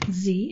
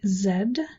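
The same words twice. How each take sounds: First: The letter is said as zee, American style. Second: The letter is said as zed, Canadian style.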